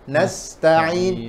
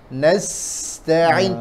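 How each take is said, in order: First: The s has no extra whistling hiss. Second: The s carries an extra whistling hiss. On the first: The speaker calls it wrong. "Jangan cuma bacanya nasta'in, kurang sempurna" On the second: The speaker calls it right. "suara tambahan seperti suara burung"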